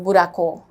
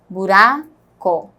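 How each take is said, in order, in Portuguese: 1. A sílaba tônica é a última. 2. A sílaba tônica é a do meio. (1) "Não é o có mais forte" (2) "é o Rá"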